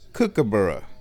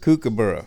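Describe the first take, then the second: First: The first syllable rhymes with 'book'. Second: The first syllable rhymes with 'spook'. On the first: "pronounced more like kookaburra, where the first syllable cook is cook instead of kook" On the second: "I guess my accent in pronouncing the word kookaburra. I say kook"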